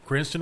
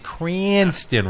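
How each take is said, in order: First: The vowel is short and plain. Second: The vowel is drawn out very long. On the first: The speaker calls it wrong. "I did not pronounce it right" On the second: The speaker calls it right. "There's supposed to be about fourteen A's"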